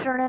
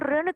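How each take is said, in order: First: The word begins with a 'shra' sound. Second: The word begins with a plain 'ri' sound. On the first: The speaker calls it wrong. "श्रण नहीं कहेंगे" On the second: The speaker calls it right. "ऋण कहेंगे"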